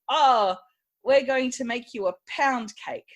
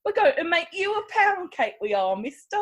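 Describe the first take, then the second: First: Said in the usual way. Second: Hammed-up British accent, sounds almost German; a bad British accent that comes out German; mock British accent. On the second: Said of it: "I forgot to do my British accent".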